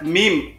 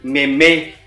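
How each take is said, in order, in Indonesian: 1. Ini satu suku kata, seperti huruf mim. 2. Ini dua suku kata dengan bunyi meh. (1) "ini dibaca meme ... seperti huruf hijaiyah meme" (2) "bukan meme"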